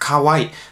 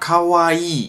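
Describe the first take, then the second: First: The final i vowel is short. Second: The final i vowel is long. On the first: The speaker calls it wrong. "Es ist kein kurzes I und das hört man, finde ich, oft in Deutschland" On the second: The speaker calls it right. "das I wird lang ausgesprochen"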